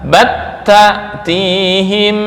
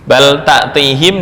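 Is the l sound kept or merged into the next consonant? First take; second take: merged; kept. First: The l merges into the following t sound. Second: The l sound is pronounced clearly before t.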